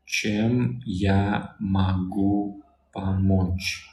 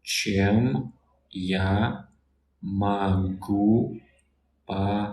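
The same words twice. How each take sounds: First: Чем я могу помочь said as one very slow phrase; very slow whole phrase. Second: Чем я могу помочь broken into separate words with pauses; word by word demo. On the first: Teacher says чем я могу помочь whole and very slowly. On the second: Teacher breaks чем я могу помочь into words for a learner. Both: Shown as a demonstration. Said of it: "how can I help you".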